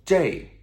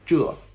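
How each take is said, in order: First: The word ends in a glide, zhei. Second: The word ends in a plain vowel, zhe.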